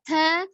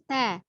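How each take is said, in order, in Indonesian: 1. Suku katanya dilebihkan dan dipanjangkan. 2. Suku katanya pendek dengan hembusan napas ringan. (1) "jangan diayun, kemudian tanya tidak berlebih juga, tidak takalu"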